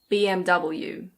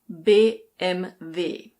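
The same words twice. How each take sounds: First: The letters are said with English pronunciation. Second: The letters are said with German pronunciation. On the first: "But in English, we say B M W" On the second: "In German, this is B M W"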